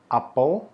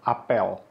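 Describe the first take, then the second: First: Apel with a short neutral 'uh' in the second syllable; schwa in apel. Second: Apel with a clear 'eh' in the second syllable; open e in apel. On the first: Teacher giving first homograph example, apel with schwa. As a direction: say apel as 'AH-puhl'. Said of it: "Tulisannya sama persis". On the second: Teacher contrasting the homograph, apel with clear e. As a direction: say apel as 'ah-PELL'. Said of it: "tapi bacanya beda". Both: Shown as a demonstration.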